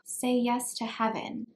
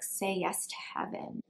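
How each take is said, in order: First: It is said in an innocent, cute way. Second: It is said in a sultry, passionate way.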